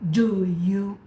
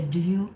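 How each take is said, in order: First: Each word is said fully and separately. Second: The two words run together as one reduced unit. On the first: The speaker calls it wrong. "you don't really say it word for word" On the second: The speaker calls it right. "but you say do you"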